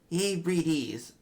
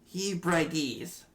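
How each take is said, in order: First: The second part has an 'ee' vowel. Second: The second part has an 'eye' vowel. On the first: The speaker calls it right. "I think that sounds better" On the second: The speaker calls it wrong. "Or he brides"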